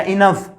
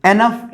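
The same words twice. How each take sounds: First: "इनफ" opening with a short "i" as in "in"; इनफ, starting "in-" rather than "en-"; alternative pronunciation. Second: "एनफ" opening with an "e" as in "end"; एनफ, starting "en-" rather than "in-"; first variant pronunciation. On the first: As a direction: say इनफ with an i-nuf first vowel. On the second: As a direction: say एनफ with an e-nuf first vowel. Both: Shown as a demonstration. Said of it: "एनफ या इनफ".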